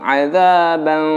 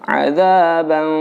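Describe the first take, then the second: The two takes are said the same way.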